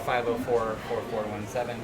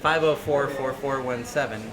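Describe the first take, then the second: First: It is said at a normal, quieter volume. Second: It is said loudly and proudly.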